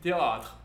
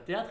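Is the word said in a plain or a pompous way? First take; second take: pompous; plain. First: The word is said pompously, with a drawn-out a. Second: The word is said plainly, with an ordinary a. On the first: "ce putain d'accent circonflexe sur le A qui fait qu'on dit théâtre" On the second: "on ne dit pas théâtre"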